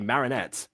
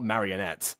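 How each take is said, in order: First: The name is said with three syllables. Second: The name is said with four syllables. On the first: The speaker calls it right. "Bond said it correctly. Marinette" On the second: The speaker calls it wrong. "not marionette"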